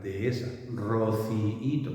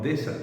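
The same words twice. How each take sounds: First: Dehesa and rociíto said slowly with a small pause between the twin vowels; slow, careful De-he-sa, ro-ci-í-to; careful hiatus. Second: Dehesa run together as two syllables, deh-sa; fast colloquial dehesa. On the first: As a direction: pull the vowels of Dehesa apart, de-e-sa. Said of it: "Si queremos hacerlo bien, tenemos que hacer una pequeña pausa". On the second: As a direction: say dehesa quickly, vowels merged. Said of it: "cuando vamos a referirnos a una dehesa, decimos". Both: Shown as a demonstration.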